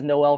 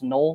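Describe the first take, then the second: First: The name does not sound like 'Nole' in Seminoles. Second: The name sounds like 'Nole' in Seminoles. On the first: The speaker calls it wrong. "I pronounced it as Noel for the entire season last year" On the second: The speaker calls it right. "it's actually pronounced Noel, like Seminoles"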